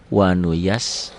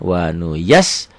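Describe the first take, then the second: First: The doubled s is held and released smoothly. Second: The doubled s is cut off with a sudden jolt. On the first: The speaker calls it right. "Tapi jangan dihentak" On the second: The speaker calls it wrong. "seperti dihentak, seperti api nyambar minyak"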